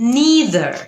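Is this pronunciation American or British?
American. It is said with an American pronunciation. "এটা হচ্ছে American উচ্চারণ"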